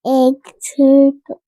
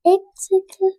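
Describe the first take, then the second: First: Said in the usual way. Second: Whispered echo of "egg circle". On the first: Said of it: "repeated softer". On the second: Shown as a demonstration. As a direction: breathe "egg circle" without voice. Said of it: "echoes in a whisper".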